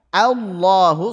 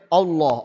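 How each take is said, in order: First: The opening vowel is thin and bright. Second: The opening vowel is thick and dark. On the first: The speaker calls it right. "A sudah yakin tipis, fathahnya jelas" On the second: The speaker calls it wrong. "Jangan sampai ... itu tebal itu"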